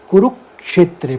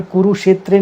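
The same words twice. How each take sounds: First: कुरुक्षेत्रे with clear क्ष; कुरुक्षेत्रे with the क्ष clearly sounded; correct stress. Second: Said in the usual way. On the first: Shown as a demonstration. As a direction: say कुरुक्षेत्रे carefully, with weight on क्ष. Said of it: "कुरुक्षेत्रे पढ़ेंगे". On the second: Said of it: "नहीं पढ़ेंगे".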